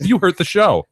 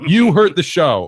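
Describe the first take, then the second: First: Loud, high mock scolding; hammed-up accusation, pitched up; mock outrage. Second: Loud, slow, high mock accusation; slow mock outrage. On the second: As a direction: drag it out in hammed-up outrage. Repeated mock scolding.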